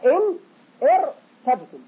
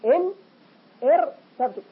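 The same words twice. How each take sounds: Both takes have the same delivery.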